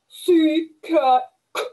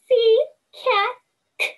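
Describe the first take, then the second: First: It is said in a low-pitched dog voice. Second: It is said in a high-pitched cat voice. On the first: "say it like a dog" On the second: "say it like a cat"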